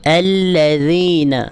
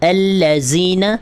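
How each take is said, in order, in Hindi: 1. बीच के व्यंजन को नरमी से बोला जाता है। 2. बीच के व्यंजन को कठोरता से बोला जाता है। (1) "अल्लज़ीन इस तरीके से पढ़ेंगे" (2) "सख्ती से नहीं पढ़ना। अल्लज़ीन इस तरीके से आपने नहीं पढ़ना।"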